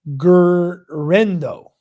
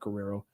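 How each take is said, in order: First: The name ends with a 'rendo' sound. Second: The name ends with a 'rero' sound. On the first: The speaker calls it right. "she spelled it right. I said it wrong" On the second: The speaker calls it wrong. "it's not Guerrero"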